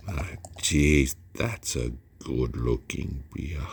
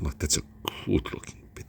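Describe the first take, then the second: First: Frown and lean hard into it; aggressive frowny delivery. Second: Half-whispered with a frown; aggressive frowny delivery. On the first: Beer reviewer admiring the pour, said aggressively. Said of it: "See the way I said it?". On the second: Reviewer repeating his line, frowning and aggressive. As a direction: push the words out through a frown. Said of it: "I'm doing that little frowny face and I'm getting aggressive". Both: Shown as a demonstration.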